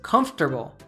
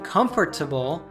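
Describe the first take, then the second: First: The word is said with three syllables. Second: The word is said with four syllables.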